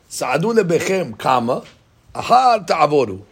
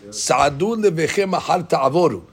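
First: It has a break after lebechem. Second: It runs on without a break after lebechem.

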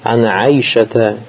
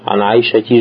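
First: The name ends in an 'a' vowel. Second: The name ends in an 'i' vowel. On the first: The speaker calls it right. "Ана Айшата радиаллаху анха" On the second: The speaker calls it wrong. "же не говорите же"

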